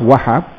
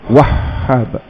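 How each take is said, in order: First: The middle h sound is short and single. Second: The middle h sound is held and doubled. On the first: The speaker calls it wrong. "dia ambil mudah je lah... Macam sebut nama orang" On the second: The speaker calls it right. "hanya itu bersabdu wajib. Maka hanya dua kali sebut"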